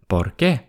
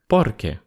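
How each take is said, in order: First: The stress is on the second syllable, rising. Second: The stress is on the first syllable, level. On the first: It asks why. "И интонация тоже будет восходящая, вопросительная" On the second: It means because. "Ударение на первый слог и интонация более ровная"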